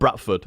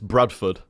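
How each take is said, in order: First: The first syllable ends in a t sound. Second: The first syllable ends in a d sound. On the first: The speaker calls it wrong. "It's not Bradford" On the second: The speaker calls it right. "it's Bradford"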